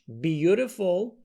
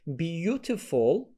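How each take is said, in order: First: The middle t is a soft d sound. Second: The middle t is a clear t sound. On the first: "beautiful American" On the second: "Beautiful British"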